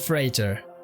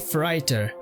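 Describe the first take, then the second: First: It is pronounced with the standard English vowel. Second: It is pronounced with a Swedish-influenced vowel. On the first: The speaker calls it right. "but it's called Freighter" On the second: The speaker calls it wrong. "I say Freighter"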